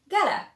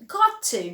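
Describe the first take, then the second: First: The words run together into one short form. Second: Both words are said fully and separately.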